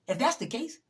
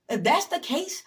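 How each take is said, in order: First: Said in the usual way. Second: That's lifted high and louder; escalating emphatic repeat; higher, louder repeat. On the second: Real, not acted.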